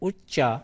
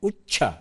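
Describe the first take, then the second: First: The middle consonant is said without aspiration. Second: The middle consonant is said with aspiration. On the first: The speaker calls it right. "ಅಲ್ಪ ಪ್ರಾಣದ್ದೇ ಬಳಸಬೇಕು" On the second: The speaker calls it wrong. "ಮಹಾಪ್ರಾಣ ಬಳಸೋ ಹಾಗೆ ಇಲ್ಲ"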